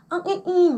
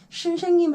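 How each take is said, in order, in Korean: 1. 자음이 탈락해서 대부분 모음만 남아요. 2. 이 단어는 s 소리로 발음해요. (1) "소리가 아예 안 나고 모음처럼만 말을 한다거나" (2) "선생님 할 때도 있고"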